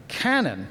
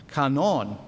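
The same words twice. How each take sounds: First: Said in the usual way. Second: "canon" the Greek way, ka-NON, open a in both syllables; Greek pronunciation. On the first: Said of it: "the English language". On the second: Shown as a demonstration. Lecturer giving the original word behind canon law, "canon" as Greek ka-NON. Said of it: "it's a word".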